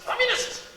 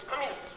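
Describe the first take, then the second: First: Sudden shout. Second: Said in the usual way. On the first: Shown as a demonstration. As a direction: bark Communists! out in alarm. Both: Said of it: "repeats word, second shouted".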